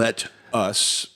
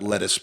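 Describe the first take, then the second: First: The two words are said clearly apart. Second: The two words blend into one word. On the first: It means an invitation to do something together. The speaker calls it right. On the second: It sounds like the vegetable. The speaker calls it wrong. "not lettuce"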